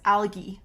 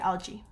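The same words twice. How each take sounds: First: The g sounds hard, like in go. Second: The g sounds soft, like a j. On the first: This is how it is said in some other areas. "you might hear the G make more of a G sound in some areas" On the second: This is how it is said in Canada. "I'm in Canada, so we say algae"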